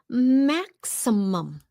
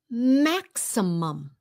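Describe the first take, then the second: The two takes are said the same way.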